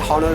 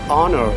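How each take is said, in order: First: The word begins with an audible h sound. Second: The word begins with no h sound. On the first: The speaker calls it wrong. "we cannot say" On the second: The speaker calls it right. "the correct pronunciation is"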